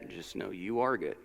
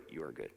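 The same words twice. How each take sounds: First: "are" pressed with a falling close; stress on are. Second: "You are good" dropped low and much softer; soft, low affirmation. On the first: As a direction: lean on "are", you ARE good. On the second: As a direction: murmur it to yourself, settling. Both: Shown as a demonstration. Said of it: "Practice that".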